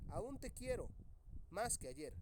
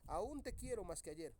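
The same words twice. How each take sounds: First: Aún te quiero, then a clear pause before más que ayer; pause at the comma. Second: Aún te quiero más que ayer said in one breath with no pause; read straight through. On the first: Teacher reading the sentence aloud with a pause after quiero. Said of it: "solamente lo dice de corrido". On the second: Teacher reading the unpunctuated sentence straight through. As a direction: run the whole line together without stopping. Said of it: "lo dice de corrido". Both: Shown as a demonstration.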